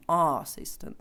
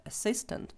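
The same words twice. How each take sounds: First: "assistant" with a long, stressed AH at the start; wrong pronunciation. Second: "assistant" with a neutral first vowel, stress on SIST; correct pronunciation. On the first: Teacher showing learners how not to read it, wrong "assistant" with stressed AH. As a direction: open "assistant" on a full AH instead of a neutral vowel. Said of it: "це не буде якийсь там assistant".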